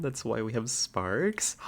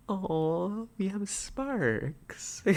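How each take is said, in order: First: Said in the usual way. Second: Gasp, then "we have sparks" drawn out slow and much higher; hammed-up dreamy sigh over "sparks"; mock swoon. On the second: Streamer swooning at a viewer's electrician pun, very slow.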